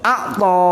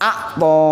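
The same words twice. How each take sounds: First: An ain sound comes before the t. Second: The same.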